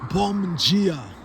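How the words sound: The word dia starts with a j sound. "in Brazilian Portuguese, the D as in dia is pronounced G"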